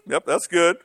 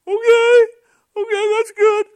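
First: Said in the usual way. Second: Very high, loud falsetto reply; mock tearful voice. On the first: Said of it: "I said". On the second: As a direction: imitate crying women accepting an answer, squeaky and loud. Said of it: "they cried".

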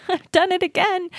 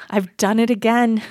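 First: Much higher, laughing, mock dismay; high laughing repeat. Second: A rueful laugh through the words; laughing self-quote. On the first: Repeating her own slip to the host, high mock-dismayed laugh. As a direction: squeal it out through laughter at yourself. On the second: Retold or imitated. Recalling her Utah for Congo moment, rueful laughing. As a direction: laugh at your own mistake as you say it.

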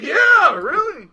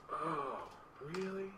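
First: High, loud "yeah, really"; exasperated, high-pitched confirmation; emphatic comeback. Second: Soft, small "oh, really?"; hushed questioning reply; subdued surprise. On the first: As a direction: throw it back loudly. His pointed comeback retold. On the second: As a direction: imitate someone suddenly taken aback, very quietly. Client's subdued reaction retold. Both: Retold or imitated.

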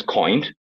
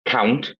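First: "coined" for count, ow turned to oy; "coined" with an oy diphthong; Northern Irish vowel. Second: Said in the usual way. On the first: Shown as a demonstration. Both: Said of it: "Count becomes coined".

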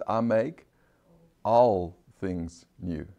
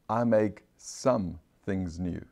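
First: Pause, then a slow, weighty "all"; slow phrase with "all" set apart after a pause; stress on "all". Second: "some" set apart in a slow phrase; slow, deliberate weight on "some"; stress on "some". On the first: Preacher showing what God really says, "all" stressed slowly. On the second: Preacher showing what God doesn't say, "some" stressed slowly. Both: Shown as a demonstration. Contrasting wording of the verse.

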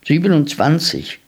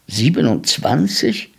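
First: "Siebenundzwanzig" higher, falling at the end; answering. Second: "Siebenundzwanzig" rising at the end; astonished question. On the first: Boy solves the man's sum, "Siebenundzwanzig" falling, sure answer. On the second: Boy hears how many rabbits there are, "Siebenundzwanzig" rising, amazed. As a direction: echo "Siebenundzwanzig" in wonder, as a question. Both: A narrator's reading.

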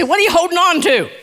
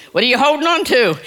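First: Prompting the congregation. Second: Said in the usual way. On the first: Shown as a demonstration. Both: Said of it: "Look at your neighbor and say".

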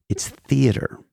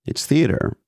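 First: Breathy stage whisper. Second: Said in the usual way. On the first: Acted. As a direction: whisper it like a secret. Dramatic whispered punchline.

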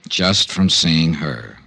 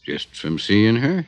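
First: "Just from seeing her" slow and flat with a firm falling end; firm slow echo. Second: Slow doubtful rising question; drawn-out teasing disbelief; skeptical question. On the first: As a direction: repeat "Just from seeing her" slowly, landing hard on the final fall. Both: Acted.

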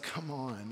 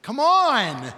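First: Quietly annoyed. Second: High, loud, drawn-out exasperation; loudly annoyed. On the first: Jesus to his frightened disciples, quietly annoyed. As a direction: say it quietly, let down. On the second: Jesus to his frightened disciples, loudly exasperated. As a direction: stretch the last word in a loud complaint. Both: Acted. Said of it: "hear the annoyance in his voice".

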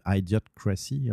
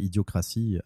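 First: Idiocracy said in English, slower, in a self-admitted bad French-accented English; Idiocracy with a clumsy Quebec accent on the English; English title. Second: Said in the usual way. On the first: Shown as a demonstration. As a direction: say Idiocracy the English way, carefully and slowly. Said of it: "excusez-moi mon accent pourri en anglais". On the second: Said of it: "En français".

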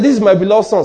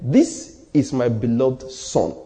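First: "This is my beloved son" raised in pitch, quick and strong; loud voice from heaven. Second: "This is my beloved son" very slow and low, word by word; clear, deliberate. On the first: God declaring his son before a crowd, loud. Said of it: "It was so loud". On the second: Preacher showing that God said it clearly, slow and deliberate. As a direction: spell out "This is my beloved son" slowly and distinctly. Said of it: "he said clearly". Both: Retold or imitated.

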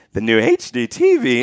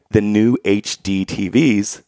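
First: Imitated voice crack. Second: Said in the usual way. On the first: Freshman starts his class presentation, voice cracking. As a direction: voice breaking upward on the last letters. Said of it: "My voice was cracking".

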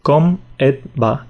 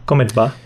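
First: "Com et va?" drawn out slowly; slow demo. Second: Said in the usual way. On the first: Shown as a demonstration. Teacher slows "Com et va?" down for the learner. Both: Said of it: "Sí, pues".

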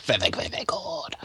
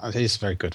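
First: Hushed whisper. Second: Said in the usual way. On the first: Acted. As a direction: drop to a breathy whisper. Sudden whispered aside.

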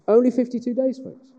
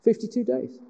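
First: Only hoog en luid benadrukt; stress on Only. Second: Said in the usual way. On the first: Real, not acted. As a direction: sla hard op het woord Only. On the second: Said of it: "And it takes them fifty-two days".

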